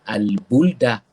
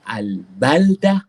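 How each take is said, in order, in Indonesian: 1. Vokal setelah b adalah u bulat. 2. Vokal setelah b adalah a terbuka. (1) "Sama sekali jangan dibaca dengan al-buldah" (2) "dibaca dengan baris atas pada huruf ba"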